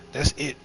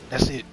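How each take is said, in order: Both takes have the same delivery.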